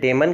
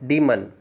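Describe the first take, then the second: First: The first vowel is a short e sound. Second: The first vowel is a long ee sound. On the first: The speaker calls it wrong. "इसे डेमन कहा जाता है" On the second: The speaker calls it right. "सही उच्चारण डीमन होता है"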